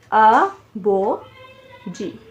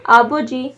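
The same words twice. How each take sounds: First: आबो जी slowly split as आ, बो, जी; syllable by syllable. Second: Said in the usual way. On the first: Shown as a demonstration. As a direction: pause after each syllable of आबो जी. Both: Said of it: "तीन syllable बन रहे हैं".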